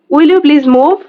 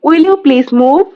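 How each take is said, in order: First: Said in the usual way. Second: "Will you please move?" said slowly with a rising end; slow, clear repeat for the learners; slow model reading. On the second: Shown as a demonstration. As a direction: drag it out slowly so learners can copy. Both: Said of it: "teacher repeats phrase twice".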